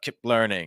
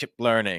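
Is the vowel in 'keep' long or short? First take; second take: short; short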